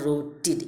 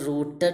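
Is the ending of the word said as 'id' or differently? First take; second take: id; differently. First: The ending is said as 'id'. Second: The ending is not said as 'id'. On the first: The speaker calls it right. "അവിടെ ഇഡാണ് ഡിയുടെ pronunciation" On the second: The speaker calls it wrong. "റൂട്ടഡ് എന്നല്ല"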